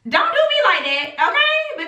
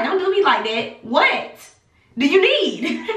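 First: Higher pitched, okay sliding way up; pleading protest. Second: Mostly near her normal voice, a laugh at the end; lightly exasperated retelling; mock exasperated. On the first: Retold or imitated. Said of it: "And I was like". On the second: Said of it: "I'm like".

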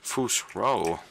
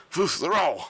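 First: Said in the usual way. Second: High, loud shout; battle shout. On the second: Acted. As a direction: shout it high like a power word. Game shout, second attempt.

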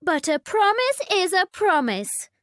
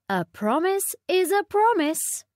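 First: High insistent princess voice; whiny spoiled princess; cartoon princess. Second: High, firm queenly reminder; a hint of a strict mother; stern queen. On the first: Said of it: "said the princess". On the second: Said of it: "said the Queen". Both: A narrator's reading.

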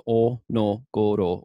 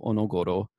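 First: O, no, goro spaced apart; syllable by syllable. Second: Said in the usual way. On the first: Shown as a demonstration. Lecturer showing a phonetic reading, o no goro in pieces. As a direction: break it up as o ... no ... goro. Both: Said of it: "This is o no goro".

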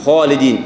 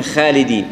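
First: "خالدين" with a thick kh and dark back aa; heavy kha. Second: "خالدين" with a light kh and fronted aa; thinned kha. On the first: Teacher showing proper heaviness, full-mouthed kh. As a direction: darken the first syllable of "خالدين". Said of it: "الحروف الاستعلاء مفخمة". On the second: Teacher showing the mistake, kh without heaviness. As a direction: flatten "خالدين" toward "khae". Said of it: "الخاء عدم تفخيمها". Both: Shown as a demonstration.

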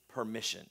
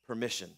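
No difference in how they are said.

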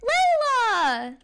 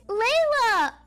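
First: Loud happy call of her name; loud excited welcome. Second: Calling her name out loud with joy; excited welcome-home call. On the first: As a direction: shout her name in delight. Little brother greets sister. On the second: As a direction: greet her with a happy shout. Family greeting arriving daughter. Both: Acted.

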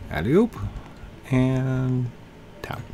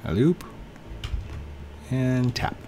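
Both takes have the same delivery.

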